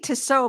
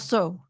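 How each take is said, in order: First: The name is said with two syllables. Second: The name is said with one syllable. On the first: The speaker calls it wrong. "I always say Tasso, but I know that's not how you pronounce it" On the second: The speaker calls it right. "It's probably like so"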